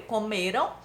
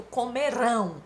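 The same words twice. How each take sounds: First: "comeram" with stress on ME, RAM unstressed; stress on penultimate syllable. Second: "comerão" slowly, stretched onto final RÃO; stress on last syllable. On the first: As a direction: lean on the middle of "comeram", on ME. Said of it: "Do primeiro". ("comeram" com a tônica no ME) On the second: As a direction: draw out the RÃO that ends "comerão". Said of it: "Do segundo". ("comerão" devagar, esticando o RÃO final) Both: Shown as a demonstration.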